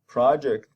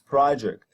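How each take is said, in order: First: The stress is on the first syllable. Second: The stress is on the first syllable.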